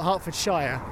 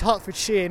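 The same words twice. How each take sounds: First: The ending is said like 'shire'. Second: The ending is said like 'sheer'. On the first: The speaker calls it wrong. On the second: The speaker calls it right. "That's how we pronounce it, like it's shears"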